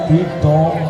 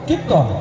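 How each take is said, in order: First: The word is said slightly drawn out. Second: The word is said short and clipped. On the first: It is full of emotional flavor. The speaker calls it right. "যার উচ্চারণ হবে একটু লম্বা করে" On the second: It carries no emotional flavor. The speaker calls it wrong. "এর উচ্চারণটা হবে ছোট ছোট করে"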